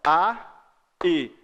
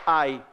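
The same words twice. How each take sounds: First: "A", pause, then "i"; two detached beats for "A, i"; separate syllables. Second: "ai" glided in one syllable; single-beat falling "ai"; vowels joined. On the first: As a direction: hiatus split "A... i". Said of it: "Aí é hiato". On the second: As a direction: slide A into a short I on "ai". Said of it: "Se fosse ai". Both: Shown as a demonstration.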